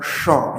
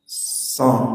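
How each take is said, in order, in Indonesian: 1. Desisnya dibuat lebih ke belakang, seperti sh. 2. Desisnya dibuat tajam di ujung lidah. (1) "Jangan begini, jangan sho, ya, bukan sho" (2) "tapi di ujung ... Pusatnya di ujung"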